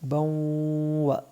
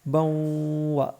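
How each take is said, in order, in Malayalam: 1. n അടുത്ത w-യിൽ ലയിക്കുന്നു. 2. n അടുത്ത w-യിൽ ലയിക്കുന്നു.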